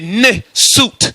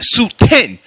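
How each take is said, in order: First: The word begins with the syllable 'ne'. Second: The word begins with the syllable 'soot'. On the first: The speaker calls it right. "You're supposed to say ne soot" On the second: The speaker calls it wrong. "not Suten"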